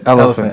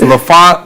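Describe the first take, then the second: First: The name begins with 'el', like 'elephant'. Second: The name begins with 'la', like 'la-font'. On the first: It is the intended name, like the animal. The speaker calls it right. "but we pronounce it elephant" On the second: It is read the way it is spelled. The speaker calls it wrong. "it's it's Lafont"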